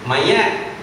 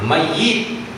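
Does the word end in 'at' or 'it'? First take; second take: at; it. First: The final syllable has an 'a' vowel. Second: The final syllable has an 'i' vowel. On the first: "Orang Melayu biasa" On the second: "mayit itu adalah sebutan yang betul"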